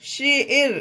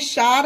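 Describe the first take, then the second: First: The vowel is an 'air' sound. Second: The vowel is an open 'ah' sound. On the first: The speaker calls it right. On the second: The speaker calls it wrong. "इसे शार नहीं पढ़ेंगे"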